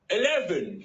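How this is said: It is said in a put-on English accent.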